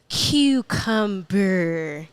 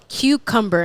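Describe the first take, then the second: First: It is said in an imitated, different accent. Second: It is said in the speaker's own accent. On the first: Someone else says it their way. "and she'll go" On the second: The speaker says it their own way. "I'll go, mom"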